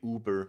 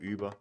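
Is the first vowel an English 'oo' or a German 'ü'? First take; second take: English oo; German ü. First: The first vowel is a plain English 'oo' sound. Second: The first vowel is a rounded German 'ü' sound. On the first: This is how English speakers say the word. The speaker calls it wrong. "whenever Americans or English Anglophone, Anglophones say that word, they'll say Uber" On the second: This is the original German way to say it. The speaker calls it right. "instead of Uber"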